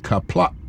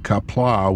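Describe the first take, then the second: First: The final vowel is cut off abruptly. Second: The final vowel trails off softly. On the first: "where you stop that sound abruptly" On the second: "with that soft"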